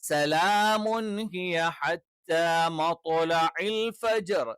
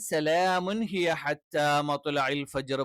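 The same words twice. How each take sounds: First: The t in matla'il sounds heavy and full. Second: The t in matla'il sounds light and thin. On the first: The speaker calls it right. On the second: The speaker calls it wrong.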